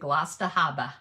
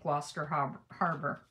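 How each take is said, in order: First: It is said in a local Massachusetts accent. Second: It is said in the speaker's non-local accent.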